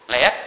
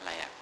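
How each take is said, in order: First: "Layak?" with a rising questioning tune. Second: "Layak." with a falling tune, settled; affirming tune. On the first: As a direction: ask "Layak?" as a real question, pitch rising at the end. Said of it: "teacher polls audience". ("Layak?" diucapkan bertanya, nada naik di akhir) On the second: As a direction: answer firmly, "Layak." dropping at the end. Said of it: "teacher answers own question". ("Layak." dengan nada turun, menegaskan) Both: Shown as a demonstration.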